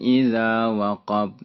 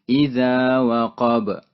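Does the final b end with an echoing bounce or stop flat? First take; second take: flat; bounce. First: The final b stops flat with no echo. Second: The final b ends with an echoing bounce. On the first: The speaker calls it wrong. "bukan idza waqab ... Itu salah" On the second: The speaker calls it right. "Maka dibaca idza waqab. Ada qab"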